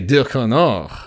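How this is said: The name is said with a French accent. The speaker calls it right. "If I'm speaking French, I want to say Ducournau"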